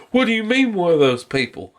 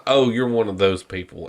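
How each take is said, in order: First: Higher-pitched mock indignant question; offended woman. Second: Lower, understated retold retort; dismissive fisherman. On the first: Woman turning on the fisherman, offended retort. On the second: Fisherman answering the scolding woman, dismissive. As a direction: imitate an unimpressed man, voice dropped.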